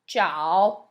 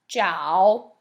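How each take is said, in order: The two takes are said the same way.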